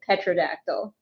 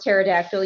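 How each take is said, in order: First: The word begins with a 'pet' sound. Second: The word begins with a 'ter' sound. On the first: The speaker calls it wrong. "You intentionally pronounce it petrodactyl" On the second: The speaker calls it right. "you know it's pronounced pterodactyl"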